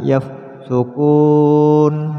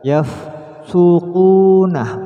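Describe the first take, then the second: First: The middle consonant is a plain 'k'. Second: The middle consonant is a deep throat 'q'. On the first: The speaker calls it wrong. "bukan yafsukun" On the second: The speaker calls it right. "yafsuqunah bukan yafsukun"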